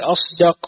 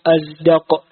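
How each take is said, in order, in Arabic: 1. الحرف الأوسط صوت s مفخم. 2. الحرف الأوسط صوت z. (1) "ويقولون في أصدق" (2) "وهي لغة لعذرة وكلب وبني القيم"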